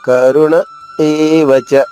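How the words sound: A short pause comes before a clear e sound. The speaker calls it right. "కొద్దిగా ఆగి"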